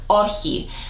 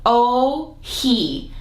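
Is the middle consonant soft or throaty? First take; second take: throaty; soft. First: The middle sound is a rasp in the throat. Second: The middle sound is a soft breathy h. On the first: "sits at the back of your throat" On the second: "like the letter O and then someone who identifies as a man, he"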